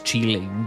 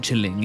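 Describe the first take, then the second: First: The first vowel is long, as in 'cheese'. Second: The first vowel is short, as in 'chill'. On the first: The speaker calls it right. "it's Cheeling" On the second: The speaker calls it wrong. "my name isn't Chilling"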